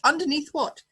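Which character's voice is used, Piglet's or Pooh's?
Pooh's. It is said in Pooh's voice.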